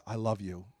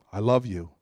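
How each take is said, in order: First: Barely-voiced I love you, much softer; soft prayer. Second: Said in the usual way. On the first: Shown as a demonstration. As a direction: breathe it to God. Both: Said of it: "even if it's something like".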